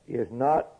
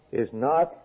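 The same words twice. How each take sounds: The two takes are said the same way.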